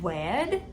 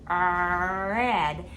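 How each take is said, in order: First: It begins with a rounded-lip W sound. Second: It begins with an R sound, lips smiling. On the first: The speaker calls it wrong. "they're always substituting W sound for the R sound" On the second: The speaker calls it right. "we smile when we say the R sound"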